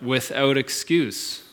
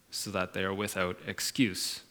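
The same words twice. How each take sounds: First: "without excuse" drawn out slowly, leaning on "without"; slow, relishing emphasis on "without excuse"; slow stress on without excuse. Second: Said in the usual way. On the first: Real, not acted. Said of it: "I love that, "without excuse". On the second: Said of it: "I love that".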